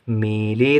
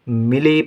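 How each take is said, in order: First: The first vowel is held long. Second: The first vowel is held short. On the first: The speaker calls it wrong. "मिली नहीं पढ़ेंगे" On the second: The speaker calls it right. "छोटी की मात्रा है माँ में"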